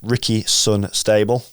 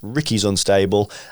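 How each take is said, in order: First: The s is joined to the following word. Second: The s is joined to the name Ricky. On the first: The speaker calls it wrong. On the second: The speaker calls it right.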